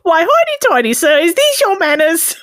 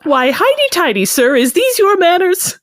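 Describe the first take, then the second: First: It is said in a Cockney accent. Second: It is said in the speaker's plain accent.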